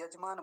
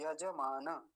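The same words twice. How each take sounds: First: यजमान as two syllables, yaj-mān; half ज. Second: यजमान in separate syllables ya-ja-mā-na; full ज. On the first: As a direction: drop the vowel after ज in यजमान. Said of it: "ये ज आधा होता तो क्या". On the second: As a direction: give ज and न their vowels in यजमान. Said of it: "क्या होता है, यजमान होता है". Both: Shown as a demonstration.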